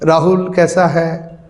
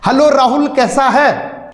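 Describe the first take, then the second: First: It is said limply, softly and slack. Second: It is said directly, loudly and energetically.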